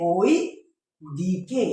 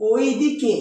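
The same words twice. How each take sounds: First: ওই glided from o into i, pause, then দিকে; diphthong sounded out. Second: Said in the usual way. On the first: Shown as a demonstration. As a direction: slowly separate ওই from দিকে. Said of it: "এটা হচ্ছে হবে". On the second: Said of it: "যদি আমি বলি".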